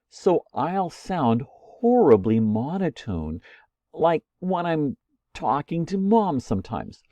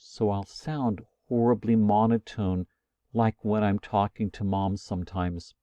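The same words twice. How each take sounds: First: The pitch varies naturally with normal inflection. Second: The pitch stays flat on one tone throughout.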